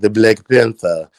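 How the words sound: It is said in an exaggerated put-on character voice.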